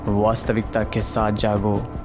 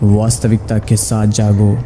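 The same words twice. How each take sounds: First: The voice is plain, with no added effects. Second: The voice is processed with movie-style effects. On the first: "ये सुनो without edited voice." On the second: "ये सुनो edited voice."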